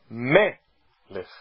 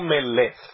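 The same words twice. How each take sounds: First: The stress is on the first syllable. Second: The stress is on the second syllable. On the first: The speaker calls it right. "O acento é uma paroxítona. ... O acento está no mem" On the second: The speaker calls it wrong. "E não melech. ... O acento não está no lamed"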